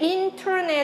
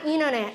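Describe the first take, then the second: First: The t after n is clearly pronounced. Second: The t after n is dropped entirely. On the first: "인터넷 해도 되지만" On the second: "T가 완전히 빠지는 게"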